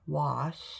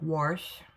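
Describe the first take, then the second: First: It is said without any R sound. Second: It is said with an added R, like warsh.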